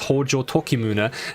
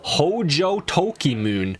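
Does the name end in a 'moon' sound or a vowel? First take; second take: vowel; moon. First: The name ends with a clear final vowel. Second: The name ends in a 'moon' sound. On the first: The speaker calls it right. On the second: The speaker calls it wrong.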